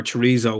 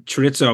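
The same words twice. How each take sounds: First: Chorizo said "chuh-REE-zoh"; chorizo, anglicised "REE-zo" ending. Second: Chorizo said "chuh-RITS-oh"; chorizo, middle sound as in "pizza". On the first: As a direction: say chorizo with a long "ee" and buzzing z. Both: Shown as a demonstration. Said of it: "whatever kind of way you pronounce it".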